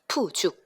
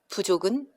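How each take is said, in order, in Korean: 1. 거센 p 소리로 시작합니다. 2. 예사 b 소리로 시작합니다.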